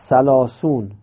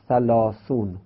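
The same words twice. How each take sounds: First: The word is pronounced in a casual everyday way. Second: The word is pronounced in a careful standard way. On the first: The speaker calls it wrong. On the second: The speaker calls it right.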